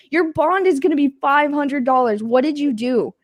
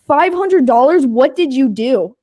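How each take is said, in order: First: Said in the usual way. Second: Mock cop in disbelief; shocked cop. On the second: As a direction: gasp out the number like a stunned cop.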